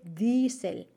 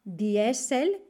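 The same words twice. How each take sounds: First: "Diesel" drawn out slowly with IE as a single long ee. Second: "Diesel" read letter by letter in Spanish, di-E-sel; mispronounced Diesel. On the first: Teacher modelling correct German for learners, "Diesel" with long ee. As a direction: say "Diesel" as DEE-sel, one long I. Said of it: "se dice Diesel". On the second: Teacher showing learners the spelling trap, "Diesel" as di-E-sel. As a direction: say "Diesel" with I and E as separate vowels, di-E-sel. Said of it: "es una I larga, como en Diesel". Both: Shown as a demonstration.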